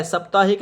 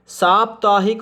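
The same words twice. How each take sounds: First: साप्ताहिक with a short first vowel, "sap-taa-hik"; wrong pronunciation. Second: साप्ताहिक with a long first "saa"; correct pronunciation. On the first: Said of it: "नहीं होता". (साप्ताहिक में "स" छोटा, गलत उच्चारण) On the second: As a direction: say साप्ताहिक as saap-taa-hik, long aa at the start. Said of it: "साप्ताहिक नहीं होता". (साप्ताहिक में "सा" लंबा बोलें) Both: Shown as a demonstration.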